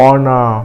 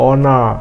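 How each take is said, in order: No difference in how they are said.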